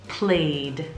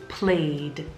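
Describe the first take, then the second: No difference in how they are said.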